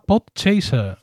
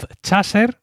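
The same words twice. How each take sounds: First: Podchaser said slowly as an English name; slow English-style Podchaser; English pronunciation. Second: Podchaser read slowly by its Spanish spelling; slow, spelling-style podchaser with a Spanish a; as written. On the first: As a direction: say Podchaser the English way, "pod-CHEI-ser". English name, then as written. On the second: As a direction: say podchaser as written, "pod-CHA-ser". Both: Shown as a demonstration.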